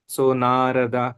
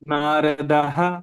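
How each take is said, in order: First: The word ends on a plain vowel. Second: The word ends with a breathy echoed ha. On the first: "it should be pronounced as नारदा" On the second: "the hakara is little opened out"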